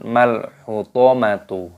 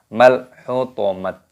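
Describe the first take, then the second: First: The word ends with a tu sound. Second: The word ends with a t sound. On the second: "Salah kalau membaca"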